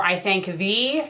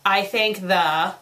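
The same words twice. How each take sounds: First: "thee" with a long EE; corrected word. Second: "the" as a short "thuh", left hanging; literal misreading. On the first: Reader offers the proper word, "thee" with long EE. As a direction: end "I thank thee" on a clear "ee". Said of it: "have the proper word thee". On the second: Reader mocks the typo, "the" said as "thuh". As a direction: say "I thank the" slowly, ending on "thuh". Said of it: "they're not the". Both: Shown as a demonstration.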